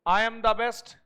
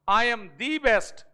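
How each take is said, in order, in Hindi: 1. 'The' छोटा और बिना स्ट्रेस के बोला जाता है, जैसे 'thuh'। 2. 'The' लंबा और स्ट्रेस के साथ बोला जाता है, जैसे 'thee'।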